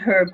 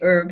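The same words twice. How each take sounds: First: It is said the British way, with an h. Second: It is said the American way, h silent.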